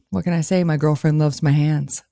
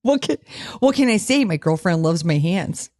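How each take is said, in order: First: It is said in a smooth, sexy voice. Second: It is said in a Canadian accent.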